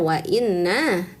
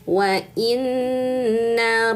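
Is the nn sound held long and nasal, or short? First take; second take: short; held nasal. First: The double n is short, without nasal hold. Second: The double n is held long and nasal. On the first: The speaker calls it wrong. "nggak bisa wa inna" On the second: The speaker calls it right. "dengungkan, tahan dan dengungkan tiga harakat"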